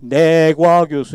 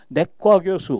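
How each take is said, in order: First: The second syllable is said with a plain consonant. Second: The second syllable is said with a tense consonant. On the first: It follows the written letters. The speaker calls it wrong. "이런 사람 없잖아요" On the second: It follows natural speech habit. The speaker calls it right. "우리 언어의 올바른 발음은"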